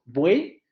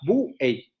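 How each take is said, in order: First: The word is said as a single syllable. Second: The word is split into two syllables. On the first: The speaker calls it right. "una sola sílaba" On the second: The speaker calls it wrong. "Nadie de ustedes dividiría eso en dos sílabas. Nadie diría buey"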